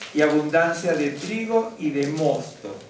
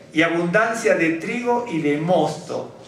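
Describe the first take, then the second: No difference in how they are said.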